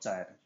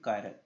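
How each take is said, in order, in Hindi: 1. यह शब्द ch की आवाज़ से शुरू होता है। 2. यह शब्द k की आवाज़ से शुरू होता है। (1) "नॉट चायरल" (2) "प्रोनाउंसिएशन होती है कायरल"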